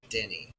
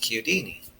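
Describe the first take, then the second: First: The name starts with the sound of Chicago. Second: The name is said with Italian pronunciation. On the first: This is the Americanized form used in the Midwest. "they still pronounce it in the Midwest, Denny, like Chicago" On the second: This is the original form used in Italy. "we're gonna pronounce it like they do in Italy, how it should be pronounced"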